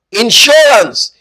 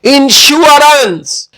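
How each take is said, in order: First: Said in the usual way. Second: انشورنس said slowly, every syllable clear; teacher modelling انشورنس; slow careful pronunciation. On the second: Shown as a demonstration. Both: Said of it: "اس کا تلفظ".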